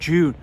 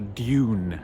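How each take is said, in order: First: The word starts with a soft 'j' sound. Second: The word starts with a clear 'd' sound. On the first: The speaker calls it wrong. "apparently I'm pronouncing it wrong" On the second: The speaker calls it right. "they only get me when I go do, do, Dune"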